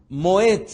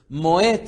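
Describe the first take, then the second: First: Moed said clearly again, rising at the end; Hebrew word moed. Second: Moed said slowly and clearly, rising at the end; Hebrew word moed. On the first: Pastor repeating moed for the congregation, clear demo. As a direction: give moed once more for them to echo. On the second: Pastor leading the congregation in repeating moed, clear demo. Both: Shown as a demonstration. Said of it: "Repitan conmigo".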